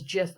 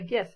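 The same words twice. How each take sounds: First: The word begins with a J sound. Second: The word begins with a hard G sound. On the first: "that seems like a J, like a Jiffy" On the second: "not a G, like a, a GIF"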